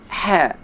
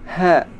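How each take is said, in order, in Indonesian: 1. Bunyi h dihembuskan dari jauh di dalam tenggorokan. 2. Bunyi h ringan, tidak didorong dari tenggorokan. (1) "tapi ha" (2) "Jangan sampai membaca huruf ha bunyi ha"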